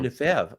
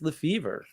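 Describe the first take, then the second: First: The name is said with a French pronunciation. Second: The name is said with an English pronunciation. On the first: The speaker calls it wrong. "pronounced the French way" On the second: The speaker calls it right. "That's not my name. It's Lefevre"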